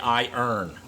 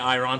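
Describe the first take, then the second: First: It sounds like 'eye-urn', with the r after the vowel. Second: It sounds like 'eye-ron', with the r before the vowel. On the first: The speaker calls it right. "say I earn" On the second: The speaker calls it wrong. "don't say Iron"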